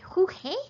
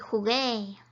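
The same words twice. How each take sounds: First: The middle consonant is a breathy h-like sound. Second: The middle consonant is a hard g sound. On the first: The speaker calls it wrong. "It would make a he, right? But we don't want to say" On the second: The speaker calls it right. "We want to say"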